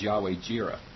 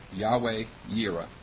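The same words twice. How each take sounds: First: Jireh begun with an English J sound; J pronunciation. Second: Yireh begun with a Y sound; Y pronunciation. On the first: Teacher introducing the first compound name, Jireh with a J. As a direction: say Jireh with a hard "j" as in jeer. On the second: Teacher giving the alternative name, Yireh with a Y. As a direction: say Yireh with "y" as in year, not J. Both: Shown as a demonstration. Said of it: "The first one is".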